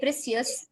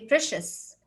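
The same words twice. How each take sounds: First: The middle consonant is a 'ch' sound. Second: The middle consonant is a 'sh' sound. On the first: The speaker calls it wrong. "I will not say" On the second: The speaker calls it right. "I will say"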